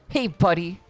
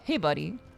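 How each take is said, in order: First: It is said in a threatening way. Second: It is said in a warm, friendly way.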